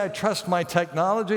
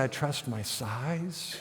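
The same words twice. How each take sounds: First: Said in the usual way. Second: Mock quiet boast. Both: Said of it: "he doesn't say".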